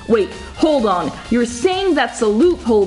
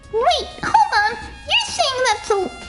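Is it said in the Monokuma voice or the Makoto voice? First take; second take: Makoto; Monokuma. First: It is said in the Makoto voice. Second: It is said in the Monokuma voice.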